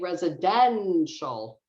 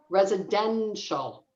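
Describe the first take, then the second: First: The stressed syllable is much louder and longer. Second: The stressed syllable is only slightly louder and longer.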